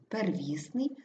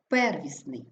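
First: ПерВІСний, stressed ВІС, rising at end; stress on second syllable. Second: ПЕРвісний, stressed PER then fall; stress on first syllable. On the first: Teacher showing double stress, stress on ВІС. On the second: Teacher showing double stress, stress on ПЕР. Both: Shown as a demonstration. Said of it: "слова із подвійним наголосом".

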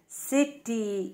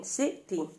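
First: سيتي drawn out slowly in two syllables. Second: Said in the usual way. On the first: Shown as a demonstration. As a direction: pull سيتي apart slowly. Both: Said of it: "يحتوي على مقطعين صوتيين".

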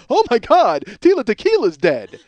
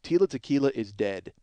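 First: Higher, louder mock gasp of shock; hammed-up horrified fan. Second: Said in the usual way. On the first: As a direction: gasp it out like a late-night fan hearing news. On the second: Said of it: "It's not like I was up at three in the morning".

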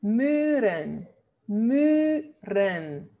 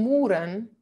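First: Muren with long rounded "ü", "MÜÜ-ren"; correct Dutch version. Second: Muren with "oo", "MOO-ren"; wrong Spanish version. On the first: Teacher correcting "muren", long Dutch rounded U. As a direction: sound out "muren" with a tight rounded vowel. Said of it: "Porque tenemos una consonante". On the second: Teacher rejecting "muren" said with Spanish "oo". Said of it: "Eso no son muren". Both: Shown as a demonstration.

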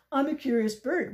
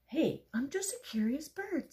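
First: Loud, higher scornful mimicry; mocking. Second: High, light, innocent protest; innocent duck. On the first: Pigeon parroting the duck mid-rant, mocking. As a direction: throw the words back loudly, mocking. Pigeon mocks duck's words. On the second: Acted. Little duck excusing its questions to the pigeon, innocent. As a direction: plead innocence in a higher, gentler voice.

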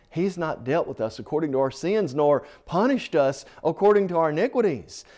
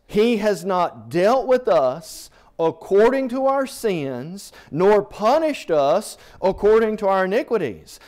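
First: Said in the usual way. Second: Louder, higher pulpit reading; preaching at full force. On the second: Acted. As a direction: proclaim the verse to the congregation. Preacher reading scripture aloud.

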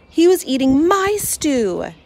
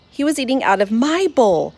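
First: "was" held long and high, slow, in "He was eating my stew"; slow outrage, leaning on "was"; stress on was. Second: "my" lifted in "He was eating out of my bowl"; stress on my. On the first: Cat outraged to see his brother eating "my stew", stressing "was". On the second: Cat outraged his brother eats from "my" bowl. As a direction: lean on "my" with a falling close. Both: Acted. Indignant narration, repeated line.

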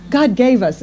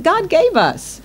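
First: God leads the phrase, gave us stays level; stress on God. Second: Gave lifted up high and held; stress on gave. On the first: Preacher repeating to his church, weight moved onto God. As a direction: put the weight on God instead. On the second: Preacher stressing to his church that God gave us humor, gave lifted high. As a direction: lean on the word gave, then let God gave us fall. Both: Shown as a demonstration.

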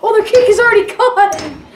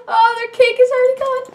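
First: Loud, raised, on the edge of laughter; delighted loud outburst; gleeful exclamation. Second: Fast, high, giddy from laughing; quick high-pitched gloating; high, giddy repeat. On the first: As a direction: crow over the other team's loss. Laughing at rival team's loss. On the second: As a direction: squeal it out through the giggles. Repeats it after laughing fit. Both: Real, not acted.

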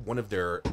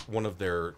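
No difference in how they are said.

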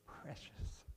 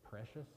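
First: Breathy, hushed, delicate "Precious"; a soft, airy, cooing "Precious"; dainty whispered precious. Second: Said in the usual way. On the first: Shown as a demonstration. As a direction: breathe "Precious" out softly like a fragile treasure. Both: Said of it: "that's a woman's word".

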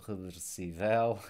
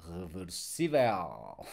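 First: Reversível wrongly stressed as reversi-VEL; reversível as if unaccented, end-stressed VEL; stress on last syllable. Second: Reversível stressed on SÍ, ending in a dark L; slow reversível, low, with a heavy L; reversível drawn out, re-ver-SÍ-vel, thick L; thick final L. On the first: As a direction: put the weight on VEL in reversível. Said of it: "So without accent mark". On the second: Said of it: "it's also this more thick L". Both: Shown as a demonstration.

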